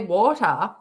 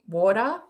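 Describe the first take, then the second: First: The word is said carefully and clearly. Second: The word is said loosely and casually. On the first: "I actually said that better than I normally say it" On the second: "I normally just say water, like water"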